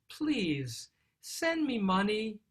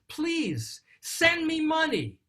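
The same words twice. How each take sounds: First: It is said in a soft, pleading tone. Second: It is said in an upset, demanding tone.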